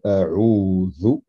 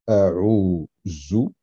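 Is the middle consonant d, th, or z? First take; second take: th; z. First: The middle consonant is a soft th sound. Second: The middle consonant is a z sound. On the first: The speaker calls it right. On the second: The speaker calls it wrong.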